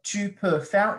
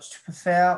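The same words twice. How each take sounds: First: It is said carefully, with every sound pronounced fully. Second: It is said in a quick, casual, reduced way. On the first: This is the careful form used for learning. "say things very formally" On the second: This is how it sounds in everyday speech. "I've been saying like"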